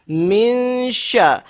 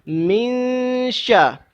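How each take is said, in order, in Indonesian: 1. Bunyi n tersembunyi, disengaukan, dan bergerak menuju sh. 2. Bunyi n tersembunyi, disengaukan, dan bergerak menuju sh.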